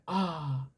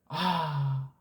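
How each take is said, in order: First: It sounds like an excited, emotional cry. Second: It sounds like a sigh of relief. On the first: A long-missed friend was met again. "친구랑 오랜만에 만났을 때 격정에 아" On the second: Something needed was finally found. "배가 엄청 고팠는데 어떻게 하다 그 메리치 조그만 거 하나 발견했을 때 아"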